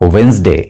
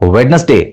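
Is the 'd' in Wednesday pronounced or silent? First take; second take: silent; pronounced. First: The 'd' after 'we' is silent. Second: The 'd' after 'we' is pronounced. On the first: The speaker calls it right. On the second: The speaker calls it wrong.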